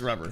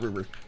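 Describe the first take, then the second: First: The first vowel is a short 'uh' sound. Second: The first vowel is a long 'oo' sound. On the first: The speaker calls it right. "it says rubber" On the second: The speaker calls it wrong. "not Ruber"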